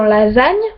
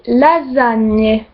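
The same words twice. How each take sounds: First: The final e is silent, French style. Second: The final e is clearly pronounced.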